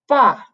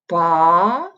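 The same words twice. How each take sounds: First: The pitch falls downward. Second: The pitch rises upward. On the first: "the fourth tone, which is like um, a descending line" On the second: "second tone would somewhere like this, like a rising line"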